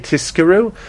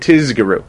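First: The middle consonants are a voiceless s and k. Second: The middle consonants are a voiced z and g. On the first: "it's easy to say tiskiru" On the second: "it's easy to say tizgiru"

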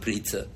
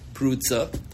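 First: The first vowel sounds like 'ee'. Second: The first vowel sounds like 'oo'. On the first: "but he pronounced it Pritza" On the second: "he would say Prutza"

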